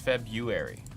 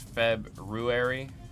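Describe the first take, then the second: First: The first R after the B is dropped. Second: The first R after the B is pronounced. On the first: "Everyone says February. We just ignore that first R" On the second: "Because there's the R. It's February"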